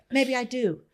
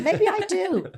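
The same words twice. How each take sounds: First: Said in the usual way. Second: Laughing, pitched higher. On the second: Real, not acted. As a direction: toss it off with a high laugh. Laughing admission to herself.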